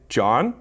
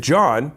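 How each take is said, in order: First: "John" with the voice rising at the end; questioning JOHN. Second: "John" falling at the end as a statement; "John" closed off with a downward tune; full stop on JOHN. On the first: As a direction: ask "John" as a question, soliciting a response. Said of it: "By saying that, I dictate that I am asking a question". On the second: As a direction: say "John" firmly downward, expecting no response. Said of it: "I'm clearly not asking for a response". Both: Shown as a demonstration.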